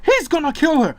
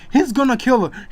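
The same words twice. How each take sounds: First: Much higher, louder panicked shriek. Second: Higher, louder frantic yell; panicked shout. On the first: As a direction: push the cry even higher. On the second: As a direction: scream for the parents in panic. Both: A narrator's reading.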